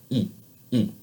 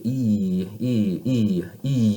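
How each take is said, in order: First: "E" short and pure, no glide; unchanging French ee. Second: "E" drawn out, slowly changing as it goes; English gliding ee. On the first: Teacher correcting the English habit, steady French "E". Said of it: "have it be the same sound the whole time". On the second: Teacher showing what to avoid, long gliding English "E". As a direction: let "E" slide, English-style. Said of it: "You hear how it's rounded and it changes?". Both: Shown as a demonstration.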